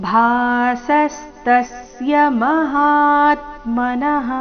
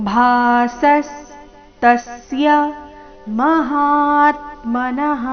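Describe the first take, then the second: No difference in how they are said.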